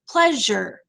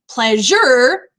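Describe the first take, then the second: First: The voice comes down on an unstressed last syllable. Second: The last syllable is stressed. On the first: The speaker calls it right. "You come down at the end, which means you have an unstressed syllable" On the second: The speaker calls it wrong. "you don't say pleasure"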